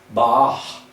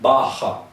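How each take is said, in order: First: The word ends on the consonant sound. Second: The word ends with an added vowel sound. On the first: The speaker calls it right. "não, bar" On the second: The speaker calls it wrong. "e não barra"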